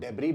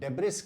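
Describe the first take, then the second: First: The word ends without an s sound. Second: The word ends with an s sound. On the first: The speaker calls it right. "हम इसको डेब्री बोल सकते हैं" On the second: The speaker calls it wrong. "यह उच्चारण गलत है"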